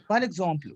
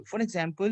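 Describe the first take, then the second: First: "for example" said in French as "par exemple"; French pronunciation. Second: Said in the usual way. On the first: Shown as a demonstration. Teacher giving pupils the French before English, French pronunciation. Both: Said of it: "nous avons, we have".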